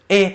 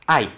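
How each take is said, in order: First: The article is a single 'e' vowel. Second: The article is the gliding vowel 'ai'. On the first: This is the modern pronunciation. "the thing in parentheses is pronounced e" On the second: This is the ancient pronunciation. "back in the day would have been pronounced as I"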